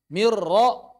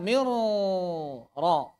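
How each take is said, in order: First: "Mirra" with one crisp, light rolled r; correct mirra. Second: "mirra" with a long, exaggerated rolled r, very slow; over-trilled r. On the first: Teacher models the right ra for students, one light trill. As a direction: roll the r of "Mirra" just once. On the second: Teacher mimics the students' over-rolled ra, slow exaggerated trill. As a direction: drag the trill in "mirra" far too long. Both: Shown as a demonstration. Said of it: "Tapi jangan berlebihan mentakrirkan mirrab".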